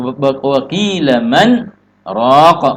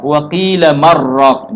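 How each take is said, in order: First: A short breathless stop comes after 'man'. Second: The words run together without any break. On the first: The speaker calls it right. "Berhenti sejenak tanpa mengambil napas" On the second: The speaker calls it wrong. "Maka jangan baca ya uh"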